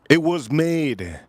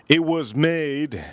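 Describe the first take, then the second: No difference in how they are said.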